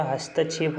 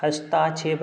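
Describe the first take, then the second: First: हस्तक्षेप said with a short ta, hastakshep; correct form said aloud. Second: हस्ताक्षेप said with a long taa, hastaakshep; wrong form said aloud. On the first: Teacher giving the correct spelling, short ta. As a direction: say हस्तक्षेप with a short middle vowel. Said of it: "होता है". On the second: Teacher showing the incorrect spelling, long taa. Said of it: "नहीं होता". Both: Shown as a demonstration.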